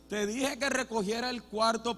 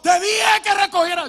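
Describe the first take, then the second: First: It is said calmly and quietly. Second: It is shouted loudly like a madman.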